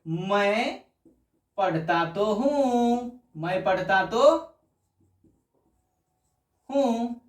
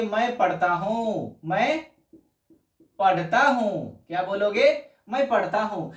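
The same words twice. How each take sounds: First: पढ़ता तो हूँ slowed, तो and हूँ drawn out and leaned on; slow forceful "मैं पढ़ता तो हूँ" with weight on तो; emphatic stress on तो. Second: Said in the usual way. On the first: Shown as a demonstration. Teacher showing students the emphatic sentence, slow with weight on तो. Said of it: "जोर डाल के". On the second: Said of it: "अगर आपको simple बोलना है".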